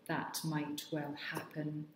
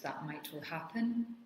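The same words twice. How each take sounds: First: It is said slowly and stiffly, word by word. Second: It is said fairly smoothly at a moderate pace. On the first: "which is very stilted" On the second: "which is a little bit more fluent"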